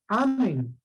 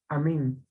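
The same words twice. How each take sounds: First: The stress is on the first syllable. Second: The stress is on the last syllable. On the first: "y no amén" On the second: "la mayor fuerza de voz está en la E"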